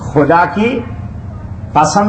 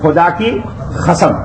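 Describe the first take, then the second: First: The last word begins with a plain k sound. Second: The last word begins with a raspy kh sound. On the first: "नहीं बोलते" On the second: "काफ को क्या बोलते? हे बोल देते हैं।"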